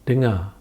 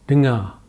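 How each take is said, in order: The two takes are said the same way.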